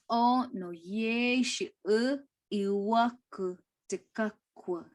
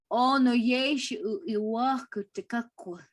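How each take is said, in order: First: Slow, deliberate "O no ye shi u iwaku te kakua"; slower repeat. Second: Said in the usual way. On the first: Shown as a demonstration. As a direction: repeat it slowly, word by word. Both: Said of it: "repeated slower".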